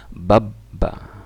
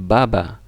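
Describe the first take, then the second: First: The middle b is held long and doubled. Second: The middle b is short and single. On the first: "di tasjid bacanya babba. Jadi double" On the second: "jadi berbeda kalau ini kan baba"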